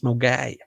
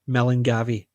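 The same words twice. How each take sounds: First: Several spelled letters are dropped from the name. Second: Every letter is sounded as it is spelled. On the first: The speaker calls it right. "but it's Milngavie" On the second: The speaker calls it wrong. "because that's how it's spelt"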